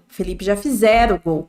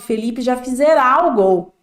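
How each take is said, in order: First: The last syllable of fizera is unstressed. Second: The last syllable of fizera is stressed. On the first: The speaker calls it right. "não tem esse acento" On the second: The speaker calls it wrong. "Colocam um acento no A. As pessoas falam assim"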